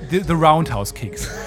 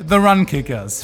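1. Der Name klingt wie 'Roundhouse Kicks'. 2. Der Name klingt wie 'Run Kickers'. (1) "Und dann gab's noch the Roundhouse Kicks" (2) "Alle drei falsch ausgesprochen"

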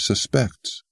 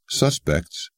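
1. تکیه روی هجای دوم است. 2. تکیه روی هجای اول است. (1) "he says suspects" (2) "Whereas we say suspects"

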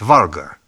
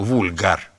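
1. У слова «vulgar» английское произношение. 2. У слова «vulgar» латинское произношение. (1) "по-английски правильно было бы сказать «варгар»" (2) "произносил не по-английски, а по-латыни, поэтому, безусловно, говорил «вульгар»"

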